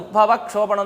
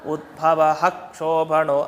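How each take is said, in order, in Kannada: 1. ಕ ಶಬ್ದದ ಮುಂದಿನ ವಿಸರ್ಗ ಕೇವಲ ಅರ್ಧ. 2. ಕ ಶಬ್ದದ ಮುಂದಿನ ವಿಸರ್ಗ ಪೂರ್ತಿ ಧ್ವನಿಯಿಂದ ಕೂಡಿರುತ್ತದೆ. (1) "ಅಂದ್ರೆ ತಪ್ಪು, ಹಾಗೆ ಹೇಳ್ಬಾರ್ದು" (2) "ಪೂರ್ತಿ ವಿಸರ್ಗ ಹೇಳ್ಬೇಕು"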